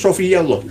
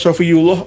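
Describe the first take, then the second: First: The vowel after 'sofiy' is 'a'. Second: The vowel after 'sofiy' is 'u'. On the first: The word is the object of the sentence. The speaker calls it right. "Sebenarnya itu sofiyallah, jadi maf'ul, jadi objek" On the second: Someone else read it this way. The speaker calls it wrong. "ini dibaca sofiyullah oleh apa, Kiai Haji Muammar Zeta"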